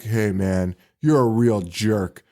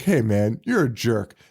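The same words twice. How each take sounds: First: Dan Haggerty impression. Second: P=A; Dan Haggerty again. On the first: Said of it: "A plus Dan Haggerty impression". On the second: Retold or imitated. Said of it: "when Dan Haggerty's like".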